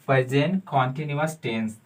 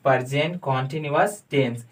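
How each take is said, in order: Both takes have the same delivery.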